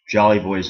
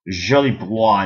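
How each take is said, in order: First: The name is said with English pronunciation. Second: The name is said with French pronunciation. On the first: "in English" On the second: "in French"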